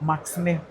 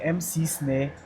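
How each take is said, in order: First: The letters M and C run together. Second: The letters M and C are said separately. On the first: The speaker calls it wrong. "they pronounce it together. So it became Max Snare" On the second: The speaker calls it right. "instead of people saying the M C snare"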